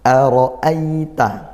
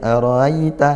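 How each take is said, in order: First: The two glottal stops are strong and clear. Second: The two glottal stops are weak and blurred. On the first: The speaker calls it right. "Ara'a itu harus dikuatkan keduanya" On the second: The speaker calls it wrong. "tidak boleh seperti itu"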